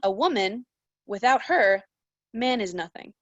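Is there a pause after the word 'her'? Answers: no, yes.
yes. It has pauses after 'woman' and after 'her'. A man is nothing without a woman. "And then you change the punctuation"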